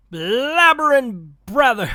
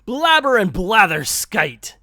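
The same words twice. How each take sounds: First: Slow, higher, louder cartoon Scrooge take that slips on the word brother; a botched first go at the catchphrase; fumbled Scrooge line. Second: Higher and louder cartoon Scrooge catchphrase, said right this time with blatherskite; corrected Scrooge line. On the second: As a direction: nail the catchphrase on the retry. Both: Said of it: "let me try that again".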